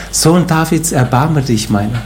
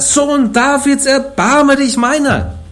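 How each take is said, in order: First: Said in the usual way. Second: Very high, slow, drawn-out cry; crying out even more. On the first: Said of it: "Was schreit er?". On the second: Acted. Blind Bartimäus crying over the rebuking crowd, very high. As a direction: beg with everything you have. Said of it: "Er aber schrie umso mehr".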